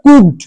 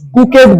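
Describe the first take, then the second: First: The ending adds no extra syllable. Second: The ending is said as an extra syllable. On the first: The speaker calls it right. "এটার উচ্চারণটা কি হবে? কুকড" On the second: The speaker calls it wrong. "কুকেড বলবে না যেন"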